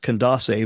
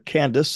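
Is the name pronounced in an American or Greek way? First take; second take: Greek; American. First: The name is pronounced the Greek way. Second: The name is pronounced the American way. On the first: "I think Greekly it's Candace" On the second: "I'm going to use the kind of the American pronunciation of that"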